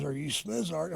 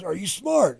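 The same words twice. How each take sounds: First: "Smizart" said with the carny "iz" after the "Sm"; Carney slang. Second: "smart" punched loud and clear; plain English. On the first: Dad testing his son, "Smizart" in Carney. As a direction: ask "Are you Smizart?" in coded carny slang. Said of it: "and he says". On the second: Dad repeating it loudly in plain English, leaning on "smart". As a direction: ask "Are you smart?" loudly, spelling it out. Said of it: "he goes". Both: Retold or imitated.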